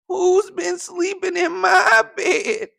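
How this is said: It is said in a tiny squeaky voice.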